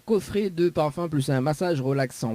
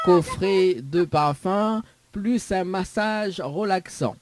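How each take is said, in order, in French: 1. Les mots sont prononcés rapidement. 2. Les mots sont prononcés lentement. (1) "Mais cause trop vite?" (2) "je vais parler lentement"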